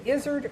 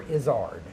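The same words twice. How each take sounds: First: "Izzard" as IZ-erd, weak second syllable; first-syllable stress. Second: "Izzard" as iz-ARD, long open second vowel; second-syllable stress. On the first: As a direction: say "Izzard" to rhyme with lizard. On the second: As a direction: lean on the end of "Izzard": iz-AARD. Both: Retold or imitated. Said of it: "don't put any emphasis on either syllable".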